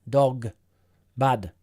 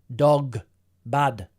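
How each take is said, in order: No difference in how they are said.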